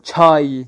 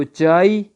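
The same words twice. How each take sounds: First: چھائی loud, with an aspirated ch and final ee; Persian pronunciation. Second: چائے with a plain unaspirated ch; Urdu pronunciation. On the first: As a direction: puff hard on the ch of چھائی. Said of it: "چھا کے ساتھ". (چھائی فارسی تلفظ میں، زوردار چھ کے ساتھ) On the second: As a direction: say چائے the Urdu way, no puff after ch. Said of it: "Urdu والے پڑھیں گے". (چائے اردو تلفظ میں، بغیر ہوا کی چ) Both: Shown as a demonstration.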